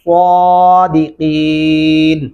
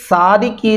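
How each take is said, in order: First: The first consonant is heavy with rounded lips. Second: The first consonant is light and thin. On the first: The speaker calls it right. "سواد پڑھتے ہوئے ہمارے ہونٹ گلائی کی شکل میں چلے جاتے ہیں" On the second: The speaker calls it wrong. "یہاں پہ صادقین نہیں پڑھنا ورنہ یہ تلفظ کی غلطی ہوگی"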